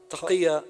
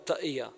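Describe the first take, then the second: First: The middle consonant is a deep q sound. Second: The middle consonant is a glottal stop.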